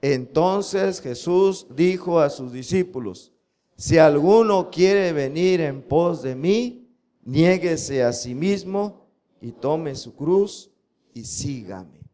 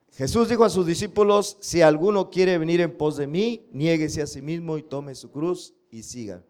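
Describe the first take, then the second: First: Slow, word-by-word memory verse reading; slow, measured scripture recitation. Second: Said in the usual way. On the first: Shown as a demonstration. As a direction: drill the verse slowly for the class to repeat. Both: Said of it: "Otra vez".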